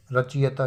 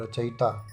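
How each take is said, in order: First: रचयिता said ra-chi-yata; wrong pronunciation. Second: रचयिता said ra-cha-yita; correct pronunciation. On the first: Teacher quizzes class on misspelling, रचयिता as ra-chi-yata. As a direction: put the i straight after ch in रचयिता. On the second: Teacher answers own question, रचयिता as ra-cha-yita. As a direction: keep cha open, then yi in रचयिता. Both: Shown as a demonstration. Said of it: "रचयिता क्या होता है".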